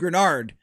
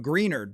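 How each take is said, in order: First: The first vowel is a short 'e' sound. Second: The first vowel is a long 'ee' sound. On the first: The speaker calls it right. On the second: The speaker calls it wrong.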